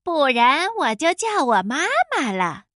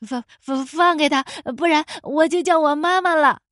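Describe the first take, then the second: First: Mocking mimicry. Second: Nervous stutter growing bolder; stammering shout. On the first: Wolf mimics the boy's threat, mocking. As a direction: parrot it back, drawing out the words. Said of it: "帅狼学着欢仔的腔调说". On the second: Boy threatens wolf to free his friend, stammering. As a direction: stumble on the first word, then blurt. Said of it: "欢仔结结巴巴地喊道". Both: A narrator's reading.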